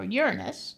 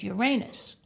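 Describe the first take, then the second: First: Uranus stressed on the first syllable, middle vowel reduced. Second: Uranus stressed on the second syllable, with a long "ay". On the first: Offering the other way to say the planet, Uranus as YUR-uh-nus. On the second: Offering one of two ways to say the planet, Uranus as your-AY-nus. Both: Shown as a demonstration. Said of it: "however you pronounce it".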